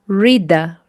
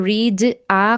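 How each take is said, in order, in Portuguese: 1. As duas palavras se falam como uma só palavra. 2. As duas palavras são ditas separadamente, com uma pausa. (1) "Então é só você juntar" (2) "parece que fica muito pausado, não sai uma coisa muito natural"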